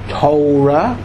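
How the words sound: Torah is said in an American Hebrew accent. "which you call the American pronunciation"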